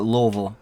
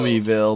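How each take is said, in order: First: It is said the local Louisville way. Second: It is said the standard, non-local way.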